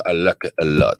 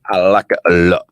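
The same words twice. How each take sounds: First: Said in the usual way. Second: Louder, showy British accent on the line. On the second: Shown as a demonstration. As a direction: put on a posh-sounding British accent for fun. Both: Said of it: "I do this British ac-, accent".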